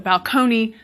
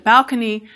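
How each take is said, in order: First: The stress is on the second syllable. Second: The stress is on the first syllable. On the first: This is the older pronunciation from Italian. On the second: This is the newer pronunciation after the shift.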